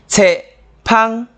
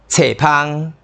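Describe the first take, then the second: First: It is said as a short sentence. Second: It is said as one compound noun. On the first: Books are fragrant. "一句，册是芳的" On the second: The fragrance of books. "名词，册的芳味。"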